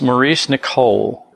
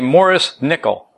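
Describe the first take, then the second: First: The name is pronounced the American way. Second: The name is pronounced the Scottish way. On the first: The speaker calls it wrong. "People in America pronounce this Maurice Nicol" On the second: The speaker calls it right. "He's from Scotland. We say Maurice Nicol"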